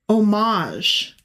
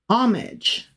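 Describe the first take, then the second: First: It uses the newer pronunciation, as heard on news. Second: It uses the older, long-familiar pronunciation. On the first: This is how news anchors suddenly began saying it. The speaker calls it wrong. "they kept saying" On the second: This is how everyone said it before. The speaker calls it right. "I had only ever heard anybody pronounce it up until that very moment"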